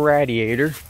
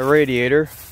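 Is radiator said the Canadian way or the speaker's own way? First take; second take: Canadian; own way. First: Radiator is said the way Canadians say it. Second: Radiator is said in the speaker's usual way.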